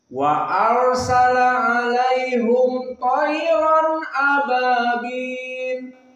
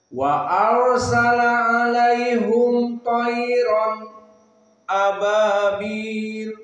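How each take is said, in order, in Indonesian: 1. Bacaannya langsung menyambung dari tayran ke ababil. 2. Ada jeda diam singkat setelah tayran sebelum ababil.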